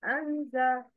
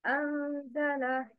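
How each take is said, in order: First: أنزل broken at the separated letters; wrong pronunciation. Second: أنزل said smoothly in one flow; correct pronunciation. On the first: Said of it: "But the wrong is". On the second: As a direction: join أنزل with no break. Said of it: "Please repeat after me the correct pronunciation". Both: Shown as a demonstration.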